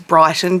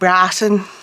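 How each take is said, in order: First: It is said in a plain everyday accent. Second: It is said in an exaggerated posh accent. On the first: This is the ordinary way to say the name. "which is Brighton" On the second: Locals of the wealthy suburb say it this way. "that's how the people who live in Brighton say Brighton"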